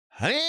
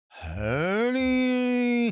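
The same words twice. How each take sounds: First: It is said in the laziest, most serious way. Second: It is said in a lazier, drawn-out way.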